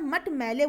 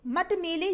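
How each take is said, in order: First: मैले with open "ai", as mat maile; correct मट मैले. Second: मेले with close "e", as mat mele; mispronounced मट मेले. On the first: Teacher gives the right word, मट मैले as mat maile. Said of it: "क्या बोला जाता है". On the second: Teacher reads the misspelling, मट मेले as mat mele. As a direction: read मट मेले with a pure e. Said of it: "जैसा कोई शब्द नहीं होता". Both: Shown as a demonstration.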